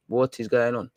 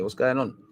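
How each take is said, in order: First: "What" leaned on, falling at the end; "What is going on?" with the weight on "What"; stress on what. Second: Said in the usual way. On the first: Acted. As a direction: land hard on "What", full words. Repeats the question, second more pointed.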